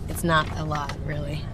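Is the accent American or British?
American. It is spoken in an American accent. The speaker calls it right. "speaking with an American accent"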